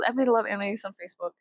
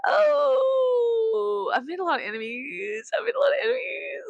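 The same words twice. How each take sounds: First: Said in the usual way. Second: High, hammed-up wail; fake crying. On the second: Speaker lamenting enemies made online, fake crying. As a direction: wail the words in mock despair.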